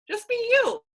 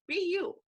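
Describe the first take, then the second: First: Much higher and louder, punching "you"; emphatic exclamation. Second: Said in the usual way. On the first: Real, not acted. Coach urging her team to be themselves, loud and high. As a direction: shout "Just be you" as a rallying cry.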